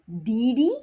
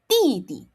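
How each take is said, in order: First: Each syllable starts with a voiced d sound. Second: Each syllable starts with an unaspirated t-like sound. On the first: The speaker calls it wrong. "You do not say Didi" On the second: The speaker calls it right. "it becomes T, and again you don't blow"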